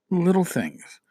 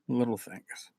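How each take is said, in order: First: Said in the usual way. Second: Much softer, almost breathed repeat; soft echo. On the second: Shown as a demonstration. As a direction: let it fall away to a hush. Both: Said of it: "repeated softer".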